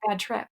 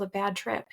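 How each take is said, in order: First: Ironic air-quoted "bad trip"; air quotes. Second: Said in the usual way. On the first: Shown as a demonstration. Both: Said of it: "air quote".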